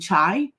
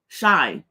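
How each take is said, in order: First: The word begins with a ch sound. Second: The word begins with an sh sound. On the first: The speaker calls it wrong. "I think that's how you say it" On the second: The speaker calls it right. "C H I like S H Y"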